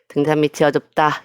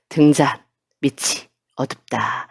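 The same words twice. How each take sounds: First: It is read straight through without breaks. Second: It is read with breaks between phrases. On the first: The speaker calls it wrong. "이렇게 읽지 말고" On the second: The speaker calls it right. "끊어서 읽고"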